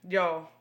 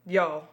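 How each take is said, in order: Both takes have the same delivery.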